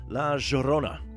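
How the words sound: The name is said with an Argentine Spanish accent.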